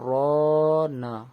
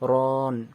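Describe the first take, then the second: First: The word ends with a final vowel sound. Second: The final vowel is dropped, ending on n. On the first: "নুন জবর না" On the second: "নুনের জবরটা উঠে যাবে"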